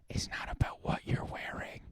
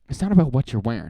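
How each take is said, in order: First: It is said close up, like a whisper. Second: It is said in a normal speaking voice.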